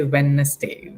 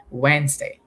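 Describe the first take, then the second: First: Wednesday with the d sounded, Wed-nes-day; spell-it-out Wednesday, said the way it is written; wrong Wednesday. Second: Wednesday as Wenz-day, d silent; correct Wednesday. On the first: Teacher to students, showing how not to say Wednesday. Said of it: "Don't say". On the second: Teacher to students, modelling the spoken Wednesday. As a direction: say Wednesday naturally, two beats. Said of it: "We say". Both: Shown as a demonstration.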